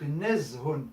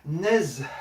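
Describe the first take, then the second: First: The word ends with a final -un syllable. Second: The word ends in a soft breathy h. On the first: "c'est quand je l'écris" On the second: "je dois m'arrêter à la fin"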